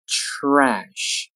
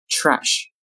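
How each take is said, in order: First: "Trash" stretched through to the sh; slow careful "Trash"; drawn-out model. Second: Said in the usual way. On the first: Shown as a demonstration. Teacher models word slowly, then normally.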